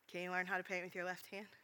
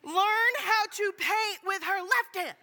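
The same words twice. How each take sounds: First: Much softer, lower voice; quiet, gentle question. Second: Slow, high, emphatic yell; very loud outburst. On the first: Imitating friend turning the answer back on him, quiet. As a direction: ask it softly after the shouting. Friend's calm reply after shouting. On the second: Finishing blurted answer to the Kroger crowd, very loud. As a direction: yell each word out slowly in exasperation. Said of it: "I respond very loudly". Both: Retold or imitated.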